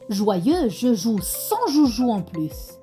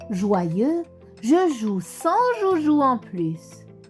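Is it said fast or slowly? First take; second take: fast; slowly. First: It is said fast. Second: It is said slowly.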